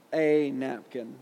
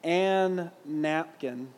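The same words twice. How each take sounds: First: Long "ay", then "napkin"; single N in "a napkin", the article stressed as "ay"; "a napkin" with one N. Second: Two N's sounded in "an napkin"; "an napkin" with double N. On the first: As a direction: say "a napkin" slowly, "a" as "ay". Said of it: "how just the N changes". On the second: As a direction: say "an napkin" slowly, holding the N. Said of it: "imagine if I wrote in my paper". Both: Shown as a demonstration.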